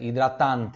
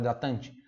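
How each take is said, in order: First: It is said with an Italian accent. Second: It is said with a Brazilian Portuguese accent.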